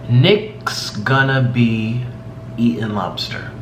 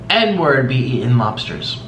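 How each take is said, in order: First: The phrase is spoken very slowly and clearly. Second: The phrase is spoken very fast and run together. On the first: "I'm saying it very slowly" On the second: "if you say it really fast"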